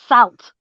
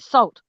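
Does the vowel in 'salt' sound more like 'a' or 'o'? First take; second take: a; o. First: The vowel sounds like an 'a'. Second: The vowel sounds like an 'o'. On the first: The speaker calls it right. "it's actually meant to be pronounced salt because it's an A, not an O" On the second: The speaker calls it wrong. "we say it the same way"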